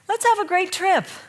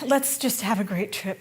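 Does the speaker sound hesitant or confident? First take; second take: confident; hesitant. First: It sounds steady and confident. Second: It sounds hesitant and apologetic.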